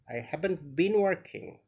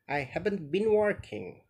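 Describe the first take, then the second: No difference in how they are said.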